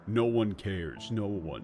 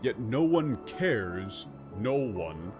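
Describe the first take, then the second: First: It sounds flat, mopey and shallowly sad. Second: It sounds frantic and exasperated, with a shaky voice.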